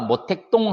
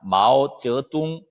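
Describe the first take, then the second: First: The name is said with Korean readings. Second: The name is said with Mandarin sounds and tones. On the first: Chinese listeners would not understand it. "우리식 발음이에요" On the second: Chinese listeners recognize it right away. "중국 발음은 뭐냐? 마오쩌둥이라고 합니다"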